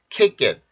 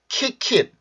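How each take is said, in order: First: The second k is a tense, unaspirated sound. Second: The second k is a breathy, aspirated sound. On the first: The speaker calls it right. "kick it 이렇게 발음을 해주시면 돼요" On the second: The speaker calls it wrong. "kick it 이게 아니라"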